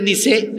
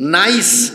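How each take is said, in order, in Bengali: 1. এটি nee-cheh হিসেবে উচ্চারিত হয়। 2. এটি nice হিসেবে উচ্চারিত হয়।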